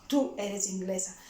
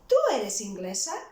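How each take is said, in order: First: It is said as a statement, falling. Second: It is said as a question, rising.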